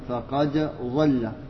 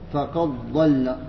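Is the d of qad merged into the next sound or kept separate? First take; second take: separate; merged. First: The d sound is pronounced clearly before the next consonant. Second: The d sound merges completely into the next consonant. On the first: This is the reading of the other reciters. "عند غير" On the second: This is the reading of Warsh. "وعند ورش فقد ظل بالإدغام"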